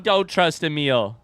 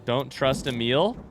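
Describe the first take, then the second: First: Slow falling repeat, thrown back in disbelief; incredulous echo. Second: Slow, with a questioning rise at the end; slow puzzled reading. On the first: Player questioning Gabe's late warning, incredulous echo. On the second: Player reading a message in the game, slow and puzzled. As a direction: read it out slowly as a question. Reads out message, then mocks it. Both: Real, not acted.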